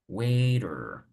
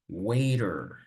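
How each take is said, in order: Both takes have the same delivery.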